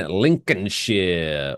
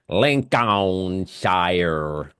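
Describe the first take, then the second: First: Said the British way, with reduced syllables. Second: Said the American way, every syllable pronounced.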